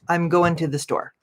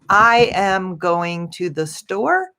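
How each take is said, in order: First: The words run together like one word. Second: Each word is said clearly and separately. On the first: "it sounds almost like one word" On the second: "instead of saying"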